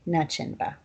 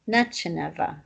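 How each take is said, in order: First: It ends without the extra vowel: -inva. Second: It ends with an extra vowel: -ineva. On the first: This is the form used by speakers from another town. "Zachalis don't say that. They just say nachinva" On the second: This is the local form of one town's dialect. "this uh ending here is unique to Dehuk"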